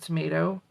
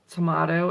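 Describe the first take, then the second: First: It is said with an American 'tomayto' vowel. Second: It is said with a British 'tomahto' vowel. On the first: This is the habit the speaker had before. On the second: This is the habit picked up from living in England.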